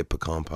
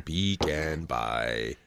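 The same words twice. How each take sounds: First: "pecan" said as puh-KAHN, stress on the second syllable; puh-kahn pronunciation. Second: "pecan" said as PEE-can, long ee, first syllable stressed; slow, low "pecan" with PEE-can and a flat a; pee-can pronunciation. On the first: Co-host comparing ways to say pecan, puh-KAHN take. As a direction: say "pecan" puh-KAHN, short first vowel, long ah. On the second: Co-host trying the other way to say pecan, slow PEE-can take. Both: Shown as a demonstration. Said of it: "Pecan or pecan?".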